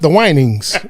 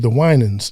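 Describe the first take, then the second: First: The name ends with an 'ings' sound. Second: The name ends with an 'ans' sound. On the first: The speaker calls it wrong. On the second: The speaker calls it right.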